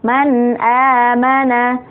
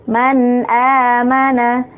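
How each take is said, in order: No difference in how they are said.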